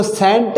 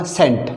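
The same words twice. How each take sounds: First: सेंट with the 'e' held too long; wrongly lengthened vowel. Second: सेंट with a short 'e', falling; short vowel. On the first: Teacher shows what not to say, long vowel. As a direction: stretch the vowel in सेंट as a mistake. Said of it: "इसको सेंट नहीं बोलूँगा मैं". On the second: Teacher gives students the correct cent, short vowel. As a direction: keep the vowel in सेंट brief. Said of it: "इसको क्या बोलूँगा". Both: Shown as a demonstration.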